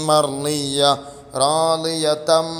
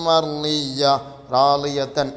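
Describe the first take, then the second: No difference in how they are said.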